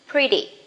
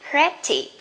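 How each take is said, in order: First: The middle consonant is a soft D-like tap. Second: The middle consonant is a clear, crisp T. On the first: The speaker calls it right. "You can pronounce as soft D, da" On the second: The speaker calls it wrong. "Don't say pretty"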